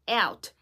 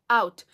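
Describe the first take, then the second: First: The vowel is made with the tongue forward. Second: The vowel is made with the tongue further back. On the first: "if you want to sound closer to American speakers, you have to say like this" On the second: "some speakers say out"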